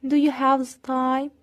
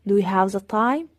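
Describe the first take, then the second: First: Slow, clear question for learners; deliberate teacher pacing; slow model question. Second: Said in the usual way. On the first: Shown as a demonstration. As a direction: model it slowly. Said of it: "slow model, then repeated". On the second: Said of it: "repeat at normal speed".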